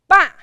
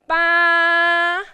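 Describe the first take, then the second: First: It is said with the fourth tone. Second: It is said with the first tone. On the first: "And tone number four" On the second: "now tone number one"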